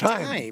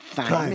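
First: The word begins with a plain t sound. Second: The word begins with a th sound. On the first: The speaker calls it right. "we forget the H" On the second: The speaker calls it wrong. "It's not thyme"

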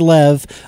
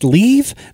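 First: The vowel is a short 'e' sound. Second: The vowel is a long 'ee' sound. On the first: "That's got to be Lev" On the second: "people are telling me that LEV is pronounced leave"

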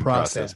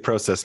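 First: It uses an American pronunciation. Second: It uses the speaker's own non-American pronunciation. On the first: "my American friends keep correcting me and saying process" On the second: "as I say process"

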